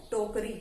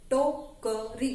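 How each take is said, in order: First: Said in the usual way. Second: टोकरी very slow, as टो-क-री; syllable by syllable. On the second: Shown as a demonstration. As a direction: break टोकरी into three stretched syllables. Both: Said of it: "इनको आप बोल बोल कर लिखना".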